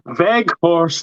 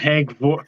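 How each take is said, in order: First: The name starts with a V sound. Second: The name starts with an H sound. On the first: The speaker calls it right. "Veghorst, not Hegvorst" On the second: The speaker calls it wrong. "not Hegvorst"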